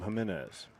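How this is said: The name is said as in Puerto Rico. The player's family is from Puerto Rico. "parents are from Puerto Rico, so safe to assume Jimenez"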